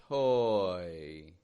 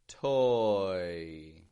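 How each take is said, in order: No difference in how they are said.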